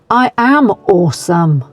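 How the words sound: It is said firmly, with strong conviction. "with some conviction"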